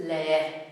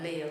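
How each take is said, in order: First: Leer kept as le-er, both vowels held; two syllables. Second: Leer blended into one English sound, lier; English-style merge. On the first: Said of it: "But this is leer". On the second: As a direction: run leer together the English way. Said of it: "turn it into a different sound". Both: Shown as a demonstration.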